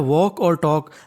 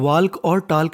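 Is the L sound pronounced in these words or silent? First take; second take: silent; pronounced. First: The L sound is silent in both words. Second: An L sound is pronounced in both words. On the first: The speaker calls it right. "एल होता है वो silent होता है" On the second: The speaker calls it wrong. "हमें वाल्क और टाल्क नहीं पढ़ना"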